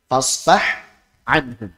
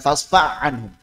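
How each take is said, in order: First: The ha sound is pronounced clearly and separately. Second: The ha sound is merged into the next letter. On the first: The speaker calls it right. "tapi izhar" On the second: The speaker calls it wrong.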